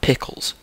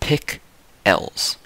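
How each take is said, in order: First: The last syllable is the usual reduced ending. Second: The last syllable is a separate, full 'els'. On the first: "not pickles"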